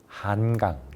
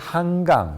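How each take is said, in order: First: The first syllable ends in an n sound. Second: The first syllable ends in an ng sound. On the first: The speaker calls it right. "혀끝을 윗잇몸에 대고" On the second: The speaker calls it wrong. "이응으로 잘못 발음하는"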